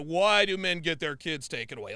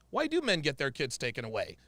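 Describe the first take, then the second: First: It is asked in a confrontational, challenging tone. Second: It is asked in a curious, inquiring tone.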